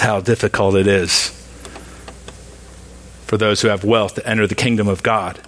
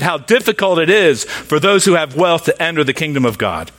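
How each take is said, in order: First: It is said flatly, without exclamation. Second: It is said emphatically, as an exclamation. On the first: The speaker calls it wrong. "He didn't say it like that" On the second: The speaker calls it right. "because there's an exclamation point"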